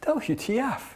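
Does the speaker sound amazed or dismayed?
amazed. It is said with delighted amazement. The new technology seems wonderful. "it would have been this expression of amazement"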